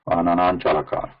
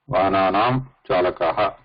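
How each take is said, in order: First: The two words run together without a pause. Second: There is a short break between the two words. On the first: "he want you to read this without pause. So like this" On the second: "break will automatically come there"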